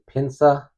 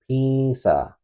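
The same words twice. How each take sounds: First: The n is pronounced as a full consonant. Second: The vowel is nasalized with no full n. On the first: The speaker calls it wrong. "some people might say pinsa. That is not the correct pronunciation" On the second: The speaker calls it right. "you'd use the nasalized form"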